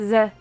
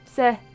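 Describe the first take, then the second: First: The syllable starts with a Z sound. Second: The syllable starts with an S sound. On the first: The speaker calls it wrong. "Not ze" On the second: The speaker calls it right.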